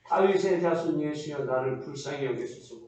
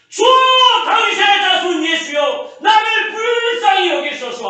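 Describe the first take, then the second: First: It is said quietly and weakly. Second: It is shouted loudly.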